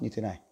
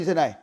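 First: The voice is low and quiet. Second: The voice is loud and ringing. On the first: "cái giọng với cái âm lượng thấp như thế này" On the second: "chúng ta cần phải nói rất là to và vang lên như thế này"

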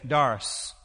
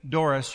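First: The name is said in a Kentucky accent. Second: The name is said in a standard, non-Kentucky accent. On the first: The speaker calls it right. "But in Kentucky, you say Doris" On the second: The speaker calls it wrong. "you don't say Doris"

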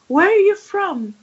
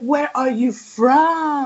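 First: The word 'from' is said briefly and plainly. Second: The word 'from' is drawn out and lengthened. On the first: The question asks where someone lives or grew up. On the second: The question probes the person's ethnic origin.

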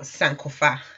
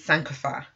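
First: It is said with a Twi accent. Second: It is said with an English accent.

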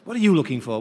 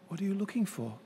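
First: It is said in an accusatory tone. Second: It is said in a gentle, inviting tone.

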